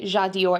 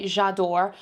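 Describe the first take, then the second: First: "Jadior" with a "dee-or" ending; Jadior with an extra syllable. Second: "J'adore" in two syllables, ending "dor"; J'adore without the "ee". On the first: Telling viewers what the top doesn't say, "Jadior" ending like Dior. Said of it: "it does say J'adore". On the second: Reading the top's real wording to viewers, "J'adore" as two syllables. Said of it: "it doesn't say Jadior". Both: Shown as a demonstration.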